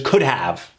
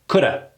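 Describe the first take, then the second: First: Both words are pronounced fully and separately. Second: It is reduced to a quick 'coulda'. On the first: "Versus could have" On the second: "Hear how fast that is?"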